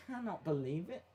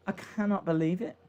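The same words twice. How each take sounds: First: Quiet, under the breath; muttered. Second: Said in the usual way. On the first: Real, not acted. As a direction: mutter it to yourself.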